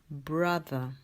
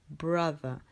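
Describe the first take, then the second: Both takes have the same delivery.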